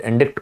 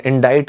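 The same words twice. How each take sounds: First: "indict" as in-DIKT, c sounded; variant pronunciation. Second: "indict" as in-DITE, no k sound; correct pronunciation. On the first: Teacher allowing the other option, "indict" as in-dikt. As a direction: pronounce "indict" with a k before the final t. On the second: Teacher giving students the word, "indict" as in-dite. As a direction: say "indict" ending like kite. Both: Shown as a demonstration. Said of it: "the pronunciation is indict".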